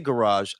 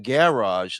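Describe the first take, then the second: First: The word is said in a plain, ordinary way. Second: The word is said in a fancy, pompous way. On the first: "I don't say garage" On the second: "so I can sound really pompous and and and and pretentious"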